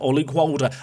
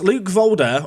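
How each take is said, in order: First: The surname begins with a W sound. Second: The surname begins with a V sound. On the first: "I don't even think they say it V in Belgium" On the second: "I call him Volder"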